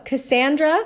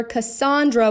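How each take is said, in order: First: Cassandra with the middle vowel as in "and"; Cassandra, short front A in the second syllable. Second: Cassandra with the middle vowel as in "on"; Cassandra, open AH in the second syllable. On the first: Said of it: "with an and". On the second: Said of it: "with an on". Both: Shown as a demonstration.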